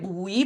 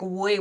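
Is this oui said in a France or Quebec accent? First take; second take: France; Quebec. First: It is said in a France French accent. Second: It is said in a Quebec accent, mouth wider. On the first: "In French, it's like we" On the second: "in Quebec, it's like we ... we open bigger our mouth"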